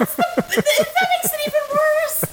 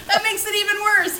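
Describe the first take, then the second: First: Laughing. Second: Said in the usual way. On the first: Real, not acted. Laughing at the war remark.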